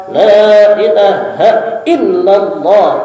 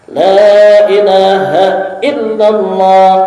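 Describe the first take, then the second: First: It is said forcefully, with spirit. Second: It is said forcefully, with spirit.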